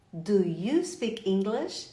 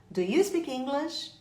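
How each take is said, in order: First: Drawn-out question, word by word; slow, carefully spaced question; slow teaching model. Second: Said in the usual way. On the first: Shown as a demonstration. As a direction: say "Do you speak English" slowly for learners. Teacher models phrase slowly, then naturally.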